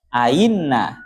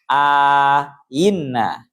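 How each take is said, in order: First: No long vowel comes before the softened second glottal. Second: A long vowel comes before the softened second glottal.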